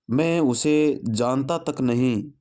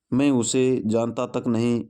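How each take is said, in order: First: Slow, "उसे" stressed with a rising tune. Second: Slow, "मैं" stressed at the start. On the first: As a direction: lean on "उसे", let it rise. ("उसे" पर ज़ोर, धीमे और उठते स्वर में) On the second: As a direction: hit "मैं" first, then say the rest evenly. ("मैं" पर ज़ोर, धीमे से) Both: Shown as a demonstration.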